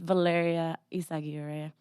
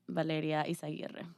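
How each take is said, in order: First: The name is said with an English accent. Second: The name is said with a Spanish accent. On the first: "it's pronounced Valeria Isaguirre in English" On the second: "in Spanish it will be Valeria Isaguirre"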